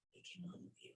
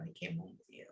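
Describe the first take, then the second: First: Softly whispered, almost no voice. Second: Said in the usual way. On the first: Real, not acted. Medium to grieving father, whispering the comfort. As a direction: breathe it out tenderly. Repeats line, second whispered.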